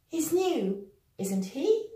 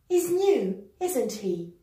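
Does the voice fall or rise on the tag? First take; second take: rise; fall. First: The voice rises on the tag. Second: The voice falls on the tag. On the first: The speaker is unsure. "we're going to use the rising intonation" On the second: The speaker is quite sure. "using a falling intonation, which means we are rather sure"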